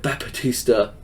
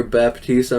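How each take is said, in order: First: "Baptista" said as "Bap-uh-tista", with an added middle syllable; Santino-style mispronunciation. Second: Said in the usual way. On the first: Shown as a demonstration. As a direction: stretch "Baptista" into four syllables: bap-uh-tis-ta. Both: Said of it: "I don't say him right".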